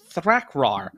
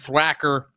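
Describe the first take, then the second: First: The name is said with r sounds. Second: The name is said without r sounds. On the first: The speaker calls it right. "It's Thrakrar" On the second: The speaker calls it wrong. "I've been saying it wrong for like a year and a half"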